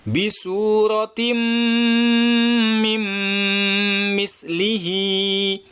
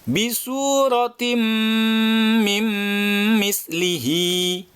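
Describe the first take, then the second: No difference in how they are said.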